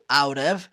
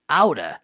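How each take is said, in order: First: Both words are said fully and separately. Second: The words blend quickly into one reduced word. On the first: "pode ser pronunciado out of" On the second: "falando rápido, pode ser pronunciado out of ou aura"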